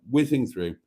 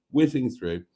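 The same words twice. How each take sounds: The two takes are said the same way.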